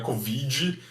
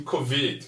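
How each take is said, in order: First: Covid said with a final "dji", Brazilian style; Portuguese covid. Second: Covid ending on a silent D, no extra vowel; English covid. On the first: Teacher showing how Brazilians say covid. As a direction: covid with the extra I sound. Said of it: "como a gente fala em português". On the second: Teacher showing the English covid to students. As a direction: covid with a clipped final d, no "dji". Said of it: "D mudo em inglês". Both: Shown as a demonstration.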